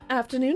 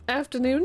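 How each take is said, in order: First: The voice is smooth, without creaky vocal fry. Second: The voice is creaky, with added vocal fry. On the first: "I don't know what that voice was" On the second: "Get some vocal fry"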